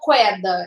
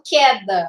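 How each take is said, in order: First: A w sound follows the k. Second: No w sound follows the k. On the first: The speaker calls it wrong. "Eu não falo queda" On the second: The speaker calls it right. "eu falo queda. Eu não escuto o barulho do U"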